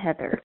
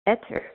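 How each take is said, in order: First: The name starts with an H sound. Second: The name starts without an H sound.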